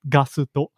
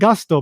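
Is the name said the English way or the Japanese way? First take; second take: Japanese; English. First: It is said as three syllables, Japanese style. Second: It is said as two syllables, English style. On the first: "In Japanese, it's it's uh, pronounced Gasuto" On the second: "I'm pronouncing it Gusto"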